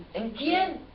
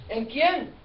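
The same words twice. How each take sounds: The two takes are said the same way.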